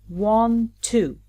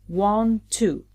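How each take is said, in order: The two takes are said the same way.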